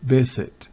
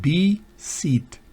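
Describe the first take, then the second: First: It begins with a v sound. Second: It begins with a b sound. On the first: The speaker calls it right. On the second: The speaker calls it wrong.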